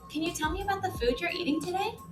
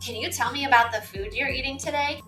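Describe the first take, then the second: First: The question is asked in a kind tone. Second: The question is asked in an unkind tone. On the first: The speaker calls it right. "You would want to use a kind voice" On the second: The speaker calls it wrong. "I wouldn't say"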